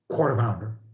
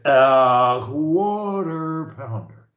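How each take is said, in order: First: It starts directly with no drawn-out opening. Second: It starts with a long, drawn-out opening sound.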